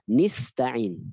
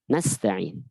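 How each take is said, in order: First: The first vowel is an 'i' sound. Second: The first vowel is an 'a' sound. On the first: The speaker calls it wrong. "qiraat syadz bacanya iyyaka nista'in dengan kasroh" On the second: The speaker calls it right. "jangan kasroh tapi harus fathah"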